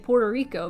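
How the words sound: The name is pronounced with English sounds. "they say Puerto Rico, because that makes sense with the rhythm of the language"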